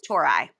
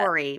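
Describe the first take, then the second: First: The last syllable sounds like 'eye'. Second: The last syllable does not sound like 'eye'. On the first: This is how the name is actually said. The speaker calls it right. "It's like Tor and then I" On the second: This is how the spelling seems to read. The speaker calls it wrong. "Looks like apostrophe I, like"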